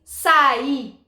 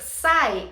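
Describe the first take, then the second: First: "saí" in two slow syllables, stress on the final i; hiatus saí. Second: "sai" in one syllable, the i gliding off the a; "sai" said quickly, stress on the a; monosyllable sai. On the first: Teacher contrasting for students, slow "saí" with stressed i. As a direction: draw out "saí", sa then a strong stressed í. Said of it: "eu dissesse saí". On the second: Teacher contrasting for students, "sai" as one syllable. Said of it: "e se ao invés de dizer sai". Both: Shown as a demonstration.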